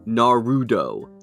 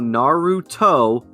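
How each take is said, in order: First: The middle consonant is a D sound. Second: The middle consonant is a clear T sound. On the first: The speaker calls it wrong. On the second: The speaker calls it right.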